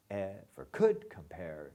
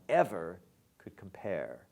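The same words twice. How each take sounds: First: COULD leaned on in ever could compare; the reading to avoid, could stressed; wrong stress on COULD. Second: EVER leaned on, could light; right stress on EVER. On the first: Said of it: "you don't want". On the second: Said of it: "you want". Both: Shown as a demonstration.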